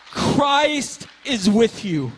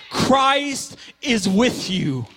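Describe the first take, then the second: First: Slow and weighty again, Christ stressed; preacher repeating slowly to the congregation; slow declaration repeated. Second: Slow, weighty, stress on Christ; preacher declaring slowly to the congregation; slow declaration. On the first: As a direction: hold it slow, lean on Christ. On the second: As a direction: land each word slowly, Christ first. Repeated declaration. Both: Acted.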